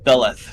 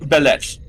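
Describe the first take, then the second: First: The word ends with a soft th sound. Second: The word ends with a harsh throaty k-like sound. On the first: This is the guess of people who don't speak the language. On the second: This is the name as said in Klingon.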